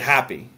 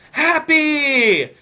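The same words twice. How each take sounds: First: The word is said in a plain, calm voice. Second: The word is yelled loudly with high energy. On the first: The speaker calls it wrong. "he said happy" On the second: The speaker calls it right. "no, he went"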